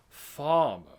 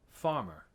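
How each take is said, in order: First: The R is dropped completely. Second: The R is pronounced lightly, only a touch. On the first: "But it's not farmer. It's not the like com- the the R isn't totally gone" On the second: "They would say farmer"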